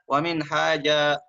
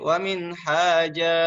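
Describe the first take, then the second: First: The long vowel is held only briefly. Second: The long vowel is held noticeably longer. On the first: The speaker calls it wrong. "jangan dibaca wa min haja" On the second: The speaker calls it right. "tapi wa min haja, lebih panjang sedikit daripada mat asli"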